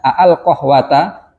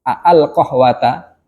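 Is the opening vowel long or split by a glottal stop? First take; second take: split; split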